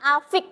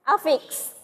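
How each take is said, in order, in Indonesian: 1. Kata itu berakhir dengan bunyi k biasa. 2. Kata itu berakhir dengan bunyi ks. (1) "bukan afik ya" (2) "tapi a affix"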